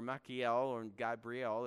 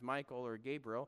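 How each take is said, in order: First: The names are said a less familiar way. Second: The names are said the common English way. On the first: "more of the correct pronunciation" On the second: "Michael and Gabriel works for me"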